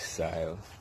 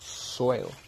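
First: The word is said in the speaker's local accent. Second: The word is said in an English accent.

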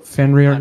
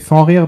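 First: The name is said with an English pronunciation. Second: The name is said with a French pronunciation. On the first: "but like, you know, Fenrir" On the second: "In French, I would say Fenrir"

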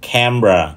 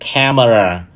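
First: The word is said with two syllables. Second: The word is said with three syllables. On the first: The speaker calls it right. "nó chỉ có hai âm thôi" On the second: The speaker calls it wrong. "thường bị phát âm sai thành ba âm tiết"

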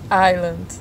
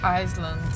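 First: No S sound is heard in the word. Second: An S sound is heard in the word. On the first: The speaker calls it right. "É Island, não pronunciou S" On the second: The speaker calls it wrong. "não pronunciou S"

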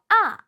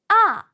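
First: The pitch falls from high to low. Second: The pitch falls from high to low.

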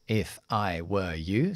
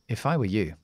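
First: Each word is said separately, with a full vowel. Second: The words are linked, with a weak short vowel. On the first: This is careful textbook English. "siempre lo hago como inglés de aula primero, de texto" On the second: This is natural conversational English. "Enlazamos todo eso"

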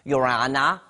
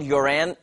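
First: It is said in an imitated Australian accent. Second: It is said in the speaker's usual accent.

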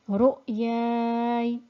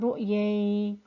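First: A lengthened vowel is followed by a still y. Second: The ending is a short ay diphthong. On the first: The speaker calls it right. "So stopping would be" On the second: The speaker calls it wrong. "don't make it into a lean letter"

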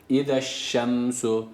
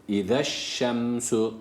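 No difference in how they are said.

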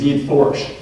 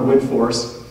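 First: The name ends with a slight sh sound. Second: The name ends with a plain s sound. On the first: The speaker calls it right. "with just a little bit of a sh on the end" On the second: The speaker calls it wrong. "which is how it looks phonetically"

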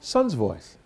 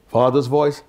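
First: It is said in a higher, younger voice. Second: It is said in a lower, deeper voice.

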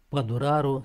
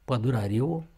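First: The stress falls on the 'a' syllable. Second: The stress falls on the 'i' syllable. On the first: The speaker calls it right. "accentuarea corectă" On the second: The speaker calls it wrong. "greșit e"

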